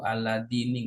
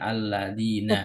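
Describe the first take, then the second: First: The word ends in an i vowel. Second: The word ends in an a vowel. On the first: The speaker calls it wrong. "nggak boleh" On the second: The speaker calls it right. "Jadi cuman alladzina"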